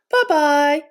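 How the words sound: It is said in a medium voice.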